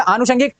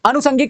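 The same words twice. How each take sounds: First: आनुषंगिक said as aanu-shangik; corrected long vowel. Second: आनुषंगिक said as anu-sangik; uncorrected s sound. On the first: (आनुषंगिक, लंबा आ और ष) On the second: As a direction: say आनुषंगिक with short a and plain s. (आनुषंगिक, छोटा अ और दंत्य स) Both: Shown as a demonstration. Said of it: "का क्या हो जाएगा".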